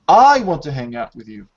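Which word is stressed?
I. The stress falls on the word I. The speaker personally wants to hang out. "you're putting stress on this subject"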